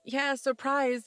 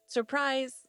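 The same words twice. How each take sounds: First: Slow, half-hearted forced cheer; awkwardly forced. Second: Said in the usual way. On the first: A narrator's reading. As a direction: drag out "surprise" with uneasy, put-on enthusiasm. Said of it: "everyone awkwardly tries to force". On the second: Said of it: "Marty says".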